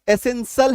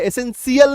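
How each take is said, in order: First: The ending is one short syllable, 'shul'. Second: The ending is two syllables, 'shee-ul'. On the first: The speaker calls it right. "एसेंशियल है" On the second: The speaker calls it wrong. "एसेंशियल नहीं है"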